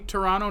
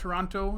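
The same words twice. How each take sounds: First: The second t sound is dropped. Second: The second t sound is clearly pronounced. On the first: This is how people in Canada say it. The speaker calls it right. "they say Toronto" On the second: This is how outsiders say it. The speaker calls it wrong. "not Toronto"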